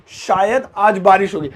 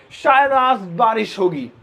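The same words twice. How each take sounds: First: Said in the usual way. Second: Slow, drawn-out example line; शायद stretched long and slow. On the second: Shown as a demonstration. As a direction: lay the example out slowly.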